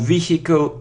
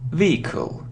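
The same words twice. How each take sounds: First: The word is said with an H sound. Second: The word is said without an H sound. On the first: The speaker calls it wrong. "It isn't vehicle" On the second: The speaker calls it right. "without this sound"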